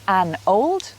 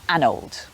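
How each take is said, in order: First: The two words are said separately and slowly. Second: The two words are run together quickly. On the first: The speaker calls it wrong. "instead of" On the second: The speaker calls it right. "pushed together to be said quickly"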